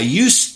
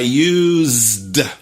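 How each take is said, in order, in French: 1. La consonne du milieu est un son s sourd. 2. La consonne du milieu est un son z sonore. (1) "C'est un S" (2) "c'est un Z"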